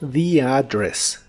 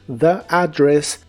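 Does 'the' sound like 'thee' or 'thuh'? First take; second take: thee; thuh. First: The word 'the' has a long 'thee' vowel. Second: The word 'the' has a short 'thuh' vowel. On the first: "es muy común decir" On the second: "es correcto decir"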